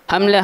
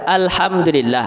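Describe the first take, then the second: First: The phrase is clipped to two quick syllables. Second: Every syllable of the phrase is fully pronounced. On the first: The speaker calls it wrong. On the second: The speaker calls it right.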